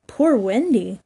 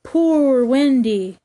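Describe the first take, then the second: First: Shorter, lighter plaintive moan. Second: Slow, drawn-out plaintive moan. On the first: Nibs repeats the weary bird's cry, mildly moaning. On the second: Nibs imitates the weary bird, moaning slowly. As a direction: stretch POOR into a long, falling wail. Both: A narrator's reading. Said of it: "as it flies it moans".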